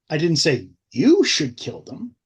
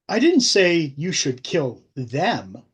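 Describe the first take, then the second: First: The word 'you' is stressed. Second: The word 'them' is stressed.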